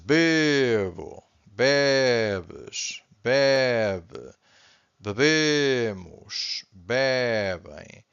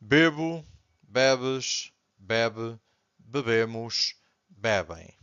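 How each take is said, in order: First: Each form is said slowly, with stress marked. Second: The forms run together at everyday speaking speed.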